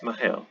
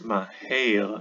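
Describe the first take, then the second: First: The second vowel sounds like a short 'eh'. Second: The second vowel sounds like 'ay' in snake. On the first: The speaker calls it right. "I would say it's maher" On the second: The speaker calls it wrong. "I wouldn't say it's maher as in snake as in a"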